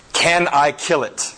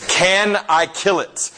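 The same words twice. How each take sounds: First: Said in the usual way. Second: Insistent repeat. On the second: Retold or imitated. Angel pressing spirit, repeated ask.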